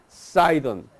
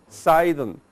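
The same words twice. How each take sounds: Both takes have the same delivery.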